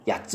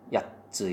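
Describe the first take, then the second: First: There is no held stop before the final syllable. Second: There is a held stop before the final syllable. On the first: The speaker calls it wrong. "그냥 야츠 이러면 안 돼" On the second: The speaker calls it right. "이런 식으로 발음을 해야 됩니다"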